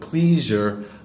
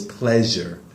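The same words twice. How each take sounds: First: The first vowel is a long E sound. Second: The first vowel is a short E sound. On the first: The speaker calls it wrong. "you said pleasure" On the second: The speaker calls it right. "It's not in a long E"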